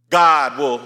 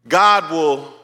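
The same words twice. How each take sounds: Both takes have the same delivery.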